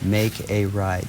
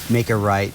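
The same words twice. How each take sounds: First: The phrase is said slowly and drawn out. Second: The phrase is said quickly and clipped. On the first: The skier gets enough time to react. The speaker calls it right. "so she has enough time to respond" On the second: The skier gets too little time to react. The speaker calls it wrong. "I can't just say"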